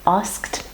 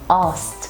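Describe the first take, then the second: First: The full sk consonant cluster is pronounced. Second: The sk consonant cluster is simplified and reduced. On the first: "It's a consonant cluster with sk, sk" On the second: "This is very common in fast speech"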